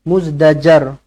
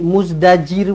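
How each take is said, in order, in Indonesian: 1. Suku kata terakhir memiliki vokal 'a'. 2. Suku kata terakhir memiliki vokal 'i'. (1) "Baris atas" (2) "jangan tukar-tukar pula. Jadi muzdajir pula"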